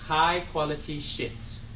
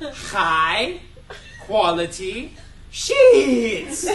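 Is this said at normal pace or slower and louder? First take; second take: normal; slower, louder. First: It is said at a normal pace and volume. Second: It is said more slowly and more loudly.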